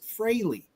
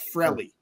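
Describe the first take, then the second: First: The first vowel rhymes with Haley. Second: The first vowel is short, said quickly. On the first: "you pronounce it Fraley ... so it sounds like Haley's Comet" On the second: "he just says it really fast ... almost like Frelly"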